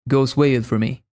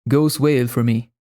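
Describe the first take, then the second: The two takes are said the same way.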